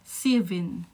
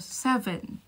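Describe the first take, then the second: First: The first vowel is a tense E near I. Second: The first vowel is a soft, open E. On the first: This is how a New Zealander says it. "Dito sasabihin nila seven. Ganyan, matigas yung E nila" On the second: This is how a Filipino says it. "Pag Pilipino ka"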